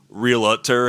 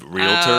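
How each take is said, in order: First: It is said Michigan-style with an extra syllable. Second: It is said the standard way, two syllables.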